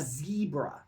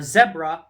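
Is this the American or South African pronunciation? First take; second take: American; South African. First: It is said with the American pronunciation. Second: It is said with the South African pronunciation. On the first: "in America, they call our zebra a zebra, saying Z" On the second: "they call our zebra"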